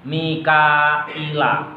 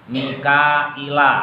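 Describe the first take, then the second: No difference in how they are said.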